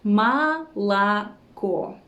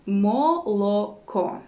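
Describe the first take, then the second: First: Молоко slowly, syllable by syllable, "ma-la-KO"; correct vowel reduction. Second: Молоко spelled out slowly as "mo-lo-ko"; unreduced O. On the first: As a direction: stretch out Молоко with unstressed o as "a". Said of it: "We say it like this". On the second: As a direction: say every o in молоко as a full "o". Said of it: "we don't pronounce it like this". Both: Shown as a demonstration.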